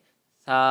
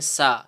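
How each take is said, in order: First: It starts with the tongue between the teeth. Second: It starts with a plain hissing s sound. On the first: The speaker calls it right. "ज़बान ... दांतों से थोड़ी सी बाहर निकाल लें" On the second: The speaker calls it wrong. "सीन की आवाज़ निकालते हैं"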